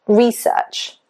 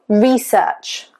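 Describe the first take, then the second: No difference in how they are said.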